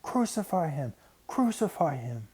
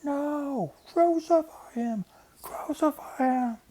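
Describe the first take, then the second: First: A lightly raised mob chant; crowd screaming. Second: Very high, slow, full-throat scream; screaming mob. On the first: Crowd screams at Pilate, lightly raised chant. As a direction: call for his death, pitched up. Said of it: "they screamed out and over and over again". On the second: Mob overpowers Pilate, very high slow screaming. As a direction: scream it at the top of your lungs. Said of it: "screamed out at the top of their lungs". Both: A narrator's reading.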